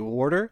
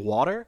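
First: Water is said with a South Jersey accent. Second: Water is said the standard, non-Jersey way. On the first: The speaker calls it wrong. "A lot of people in South Jersey say water" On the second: The speaker calls it right. "instead of saying water"

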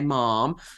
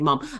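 First: It has a long vowel like 'ma'am'. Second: It is said the short Birmingham way.

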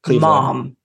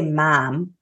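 First: The vowel is pronounced further back in the mouth. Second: The vowel is fronter, like the vowel in cat. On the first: This is how the speaker says it. "so it's like further back" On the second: This is how the other person from Ohio says it. "you say mom"

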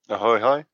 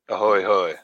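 First: It is said in a lighter, ordinary voice. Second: It is said in a deeper, weightier voice.

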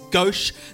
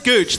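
First: The word ends in an 'sh' sound. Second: The word ends in a 'ch' sound. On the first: "Is it not pronounced gauche?" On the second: "how would you pronounce it if it wasn't gauche? Gooch"

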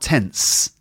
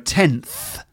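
First: The word ends with an s sound. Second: The word ends with a th sound. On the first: The speaker calls it wrong. "and not tense either" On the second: The speaker calls it right. "So tenth"

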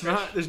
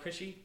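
First: The name is said as one short syllable. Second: The name ends with an extra 'ee' syllable. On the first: The speaker calls it right. "it's Krish" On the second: The speaker calls it wrong.

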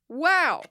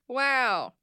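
First: It sounds very excited. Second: It sounds flat, barely excited.

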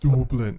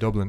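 First: The word is said in an exaggerated Irish accent. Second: The word is said plainly, without exaggeration. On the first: The speaker calls it wrong. "you don't have to go Dublin" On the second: The speaker calls it right. "you just say Dublin"

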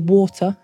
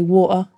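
First: The T is clearly pronounced. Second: The T is dropped, South London style.

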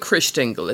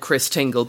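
First: It is said in a more exotic, foreign way. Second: It is said in a plain British way. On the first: "let's go with Christingle. It's a bit more, you know, exotic" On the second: "I've only ever heard it discussed by British people. So they said Christingle"

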